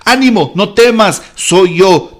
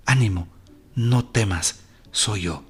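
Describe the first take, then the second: First: Loud, high, full-force preaching; a preacher booming Jesus' words. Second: Soft, gentle. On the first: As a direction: proclaim it to the congregation. Preacher proclaims the verse. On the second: Closing soft repetition. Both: Acted.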